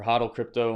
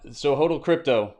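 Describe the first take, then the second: First: "Hodl" said as HAH-dl, with a short o; second try, "Hodl" rhymed with bottle; unsure pronunciation. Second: "Hodl" said as HOH-dl, with a long o; tentative "Hodl" rhymed with yodel; unsure pronunciation. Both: Shown as a demonstration. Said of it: "I don't know how you ever say that".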